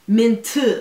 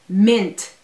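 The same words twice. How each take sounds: First: It is said with a Korean accent. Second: It is said with a plain English accent.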